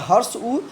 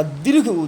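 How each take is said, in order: First: उ said briefly, as a short vowel. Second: उ held long; long vowel उ. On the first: Teacher giving a second example, short vowel उ kept brief. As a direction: cut the उ short. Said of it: "उसी प्रकार हर्ष उ". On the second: Teacher giving a second example, long vowel उ drawn out. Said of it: "दीर्घ हो गया दीर्घ स्वर". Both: Shown as a demonstration.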